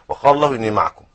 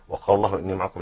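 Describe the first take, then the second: First: The phrase ends with a full stop after it. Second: The phrase runs on into the next words. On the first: God is with you, encompassing you everywhere. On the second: God is with you in support, on a condition.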